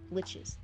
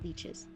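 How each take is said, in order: First: The vowel is short, like in lick. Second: The vowel is long, like in leech. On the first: The speaker calls it right. "That's how you say it" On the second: The speaker calls it wrong. "not leeches"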